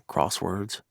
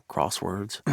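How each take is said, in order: No difference in how they are said.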